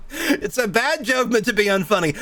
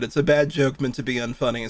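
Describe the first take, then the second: First: Laughing at the joke as you reread it. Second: Said in the usual way. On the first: Real, not acted. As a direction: repeat the line through laughter. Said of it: "rereads quote laughing".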